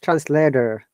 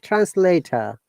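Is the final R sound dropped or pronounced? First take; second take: pronounced; dropped. First: The final r sound is pronounced. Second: The final r sound is dropped. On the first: "But in American English" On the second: "in British English, we do not pronounce R in this case"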